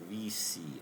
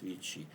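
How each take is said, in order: First: The name is said with an English pronunciation. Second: The name is said with an Italian pronunciation. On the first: "as English speakers would say" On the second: "in modern Italian it's Vichy"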